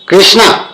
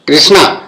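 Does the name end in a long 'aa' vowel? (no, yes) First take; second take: yes; yes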